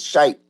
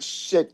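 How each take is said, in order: First: The syllable has a long 'eye' vowel. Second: The syllable has a short 'i' vowel. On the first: The speaker calls it right. "It's shite" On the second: The speaker calls it wrong. "I almost said it incorrectly. It's not shit"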